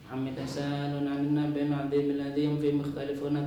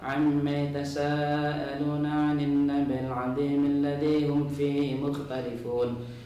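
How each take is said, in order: First: It is recited quickly. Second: It is recited at a moderately fast pace.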